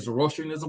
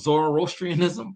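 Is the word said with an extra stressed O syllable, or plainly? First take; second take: plain; extra syllable. First: The O is unstressed, with no extra syllable. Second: The O is stressed, adding an extra syllable. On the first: This is how the speaker says it. "I just say Zoroastrianism" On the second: This is how some other people say it. "put that emphasis on that O, right? They kind of make an extra syllable"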